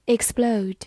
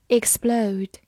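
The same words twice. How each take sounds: The two takes are said the same way.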